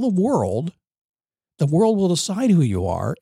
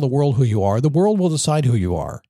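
First: The phrase is spoken more slowly. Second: The phrase is spoken very quickly. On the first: The speaker calls it right. "Can I say that again?" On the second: The speaker calls it wrong. "I said it really fast"

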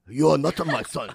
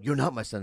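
First: It is said in a put-on Japanese accent. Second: It is said in his normal accent.

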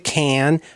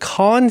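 First: Cannes is said with an Americanized vowel. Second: Cannes is said with a French-style vowel. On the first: This is how ordinary Americans used to say it. "time was Americans would say the Cannes Film Festival" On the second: This is how fancy people say it. "fancy people would say the Cannes Film Festival"

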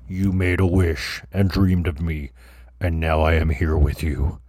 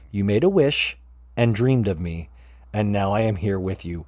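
First: The voice is put on deep and low. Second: The voice is at its normal pitch.

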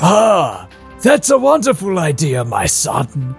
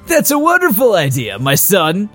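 First: It is said in a put-on Splinter voice. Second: It is said without a Splinter voice.

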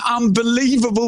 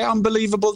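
First: The word is said loudly, with strong emphasis. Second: The word is said flatly, without emphasis. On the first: The speaker calls it right. "say it properly" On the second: The speaker calls it wrong. "Don't just downplay it"

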